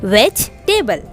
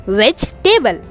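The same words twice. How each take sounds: The two takes are said the same way.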